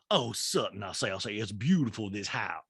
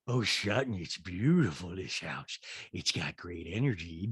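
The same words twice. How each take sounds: First: Lightly voiced catchphrase-dropping socialite; a hint of a mannered hostess impersonation; mistaken Sutton impression. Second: Dropped-pitch send-up of a gushing guest; Rinna. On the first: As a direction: slip into the wrong character's voice, fairly soft. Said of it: "No, sorry, sorry, Rinna says". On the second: Retold or imitated. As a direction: draw the praise out low and soft. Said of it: "sorry, Rinna says".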